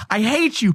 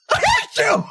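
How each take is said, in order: First: Higher-pitched mock declaration of hate; lightly hammed-up venting. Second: Extreme high falsetto squeal; absurdly high mock outburst; hammed-up hatred. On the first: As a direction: play hatred as a high-voiced joke. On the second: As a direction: squeal it as a comic peak, near laughter. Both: Acting out love-hate relationship.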